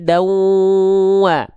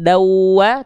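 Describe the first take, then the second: First: It is said with a held nasal hum. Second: It is said plainly, with no nasal hum. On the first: The speaker calls it right. "harus dengung bin, bindeng sengau masuk" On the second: The speaker calls it wrong. "jangan cuma dawa"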